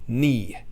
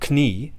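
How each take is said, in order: First: The k at the start is silent. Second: The k at the start is pronounced. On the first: This is the modern pronunciation. "Now we say" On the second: This is the older pronunciation. "the gradual reduction of kn"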